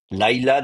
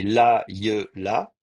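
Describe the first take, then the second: First: "Laïla" with the diphthong run together; closed-syllable Laïla. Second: "la, ye, la" in three separate slow syllables; split-up diphthong. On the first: Teacher showing students the usual closed syllable, "Laïla" with a diphthong. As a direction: say "Laïla" as two syllables, first one closed on a glide. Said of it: "normalement, est une syllabe fermée". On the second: Teacher explaining Hebrew avoids diphthongs, "la, ye, la" slowly syllable by syllable. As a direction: break the word open as "la, ye, la", no diphthong. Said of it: "on n'aime pas les diphtongues en hébreu".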